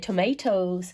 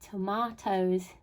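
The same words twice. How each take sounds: First: It is said with an American accent. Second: It is said with an English accent.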